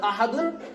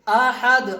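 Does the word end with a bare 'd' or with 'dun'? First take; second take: dun; bare d. First: The word ends with an added 'un' syllable. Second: The word ends on a bare 'd' sound. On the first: The speaker calls it wrong. "अहदुन नहीं पढ़ा है" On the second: The speaker calls it right. "अब इसको कुल हु अल्लाहु अहद, अहद"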